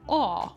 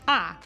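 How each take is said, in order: First: A rounded aw vowel in a British accent. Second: A forward ah vowel in an Italian accent. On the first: "in British English, if you say an A, sometimes it might sound like aw" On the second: "In Italian, an A will sound like ah, very forward"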